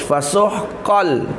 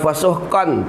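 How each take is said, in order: First: The n sound merges fully into the l. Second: The n sound is heard before the l. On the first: The speaker calls it right. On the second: The speaker calls it wrong. "jangan fasuhqan, tak bunyi kan lagi dah"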